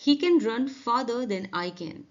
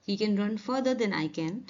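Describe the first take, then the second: First: Very slow, evenly spaced words; slow careful classroom reading; slow model sentence. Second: Very slow with a rise on further; slow careful classroom reading; slow model sentence. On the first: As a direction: read it slowly for learners. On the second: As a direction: let further lift at the end. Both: Shown as a demonstration. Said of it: "contrast farther/further examples".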